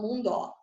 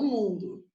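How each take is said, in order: First: "mundó" stressed on the last syllable, DÓ; wrong final stress. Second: Said in the usual way. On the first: Shown as a demonstration. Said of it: "porque eu não falo mundó". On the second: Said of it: "Eu falo mundo".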